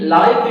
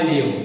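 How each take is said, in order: First: The vowel sounds like 'eye'. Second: The vowel sounds like 'ih'. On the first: It describes something happening in real time. "ആദ്യ ഭാഗത്ത് ലൈവ് എന്ന് വന്നു" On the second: It means to reside somewhere. "വെർബാണ് where I ലിവ്"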